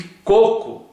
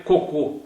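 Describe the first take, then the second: First: "coco" as "CÔ-cu", closed first O; closed stressed "cô" opening "coco"; stress on first syllable. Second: "cocô" stressed on the final closed O; strong closed "ô" ending "cocô"; stress on last syllable. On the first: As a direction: say "coco" with a strong first syllable and weak ending. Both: Shown as a demonstration. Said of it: "se não fosse o acento".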